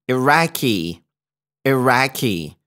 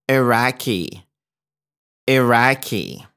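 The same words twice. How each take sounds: No difference in how they are said.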